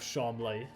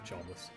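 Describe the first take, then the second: First: The name ends in an 'lee' sound. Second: The name ends like the word 'less'. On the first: The poshest form, used by the man himself. "He calls himself Charmley, the poshest one" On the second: The form used by people who dislike him. "the people that don't like him"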